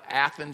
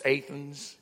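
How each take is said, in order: First: It is said the standard way, ATH-ens. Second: It is said the Kentucky way, AY-thens.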